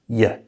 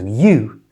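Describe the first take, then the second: First: The vowel is reduced to a weak schwa. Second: The vowel is a full 'oo' sound. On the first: "to that schwa sound again" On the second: "the oo in you"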